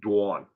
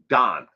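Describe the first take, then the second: First: The vowel does not sound like Don's. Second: The vowel sounds like the name Don. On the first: This is how it is said in the speaker's home region. "where I'm from, we pronounce it dawn" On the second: This is how many people on the west coast say it. "here on the west coast of the United States, a lot of people pronounce it Don, like D O N"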